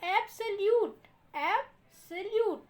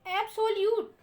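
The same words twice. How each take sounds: First: एब्सोल्यूट said slowly and carefully as ebsaljut; right pronunciation. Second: एब्सोल्यूट said the wrong way, ebsolijut, stressed high; the mistaken reading of एब्सोल्यूट; wrong pronunciation. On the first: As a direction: model the correct एब्सोल्यूट slowly. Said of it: "इसको कैसे पढ़ेंगे देखिए". (एब्सोल्यूट का सही उच्चारण, धीरे से) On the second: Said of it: "ये तो गलत उच्चारण होगा". (एब्सोल्यूट का गलत उच्चारण) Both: Shown as a demonstration.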